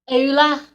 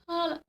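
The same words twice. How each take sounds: First: It is said in a Scouse accent. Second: It is said in an Irish accent.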